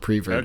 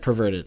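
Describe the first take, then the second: First: The first syllable is said as 'pre'. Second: The first syllable is said as 'per'. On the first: The speaker calls it wrong. "It's not preverted" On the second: The speaker calls it right. "it's perverted"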